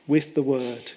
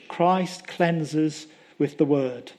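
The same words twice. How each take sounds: First: Said in the usual way. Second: "Christ cleanses with the word" drawn out very slowly, stress on "Christ"; slow emphatic. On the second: Shown as a demonstration. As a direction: lean on "Christ" and stretch every word.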